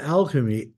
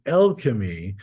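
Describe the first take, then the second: First: "alchemy" with a flat AL, as in cat; wrong pronunciation. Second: "alchemy" opening with EL, as in bell; corrected pronunciation. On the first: Lecturer rejecting the common reading, "alchemy" said AL-chemy. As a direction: say "alchemy" starting AL like pal, the rejected version. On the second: Lecturer correcting himself, "alchemy" said EL-chemy. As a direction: say "alchemy" as EL-kuh-mee, the form he prefers. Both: Shown as a demonstration. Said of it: "not alchemy".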